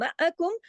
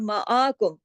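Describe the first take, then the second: First: The vowel after the 'ain is short. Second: The vowel after the 'ain is lengthened. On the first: The speaker calls it right. "मअ मअ बस मीम ज़बर म, आइन ज़बर अ" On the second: The speaker calls it wrong. "आ के साथ तो अलिफ़ लग जाता है ना"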